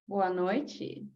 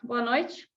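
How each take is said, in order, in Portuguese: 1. Soa provocante e sedutor. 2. Soa frio e relutante. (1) "uma mulher atraente no bar... aquele clima todo" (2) "imagina que eu vou falar com o meu inimigo... eu não gosto dele"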